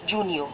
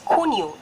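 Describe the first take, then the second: First: It begins with an English J sound. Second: It begins with a throaty, raspy H sound. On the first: The speaker calls it wrong. "It's not Junio" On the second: The speaker calls it right. "It's Cuneo"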